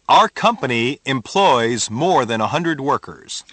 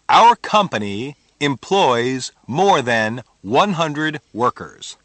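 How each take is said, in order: First: The sentence is spoken at normal speed. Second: The sentence is spoken slowly.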